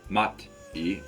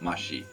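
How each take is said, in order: First: The middle consonant sounds like t. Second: The middle consonant sounds like sh. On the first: The speaker calls it wrong. "not mat e" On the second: The speaker calls it right. "but mashi"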